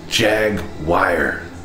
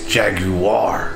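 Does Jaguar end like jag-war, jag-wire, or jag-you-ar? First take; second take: jag-wire; jag-you-ar. First: The word ends with a 'wire' sound. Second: The middle 'you' syllable is strongly emphasized. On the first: "Where do you see the wire?" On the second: "you're putting a lot of emphasis on that. You!"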